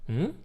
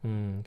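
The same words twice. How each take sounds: First: The pitch rises. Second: The pitch falls sharply. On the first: The listener is asking what something is. "going up, mm, like this, can be like what?" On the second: The listener agrees; it means yes. "can be with the fourth tone"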